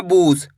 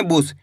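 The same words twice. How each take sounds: First: बूस with a long, stretched u; drawn-out vowel. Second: बुस with a short u, dropping in pitch; short vowel. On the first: Teacher warning students how not to read it, long-vowel बूस. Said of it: "ऐसे नहीं पढ़ना बूस". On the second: Teacher showing the correct reading, short-vowel बुस. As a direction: keep the u in बुस brief. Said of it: "छोटू की मात्रा को कम खींच के पढ़ते हैं". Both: Shown as a demonstration.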